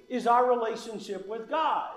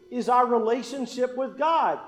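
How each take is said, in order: Both takes have the same delivery.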